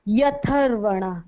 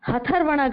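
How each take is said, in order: First: The word begins with a y sound. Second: The word begins with a clear h sound. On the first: The speaker calls it right. "या का उच्चारण पहले करेंगे, और ह क्या है, आधा है" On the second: The speaker calls it wrong. "काफी गलत pronounce किया है सबने, हथर्वणा कर लिया उसको"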